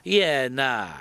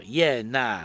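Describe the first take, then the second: First: Iena run together as ena in a Kiwi accent; clipped Kiwi accent, one quick word; Kiwi yeah nah. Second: Iena said as i-ena, a bit more spelled out in a Kiwi accent; slower, clearer Kiwi accent; Kiwi yeah nah. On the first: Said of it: "je vais vous demander de répéter après moi". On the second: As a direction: yeah nah, easier to make out. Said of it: "Est-ce que vous savez ce que ça veut dire?". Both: Shown as a demonstration.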